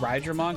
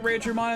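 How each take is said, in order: First: The first syllable sounds like 'rye'. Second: The first syllable does not sound like 'rye'. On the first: The name comes from the word for lightning. The speaker calls it right. "I think it's supposed to be Rydramon, because it's like Rai, like lightning" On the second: This is how the anime says the name. The speaker calls it wrong. "They pronounced it Raidramon in the anime"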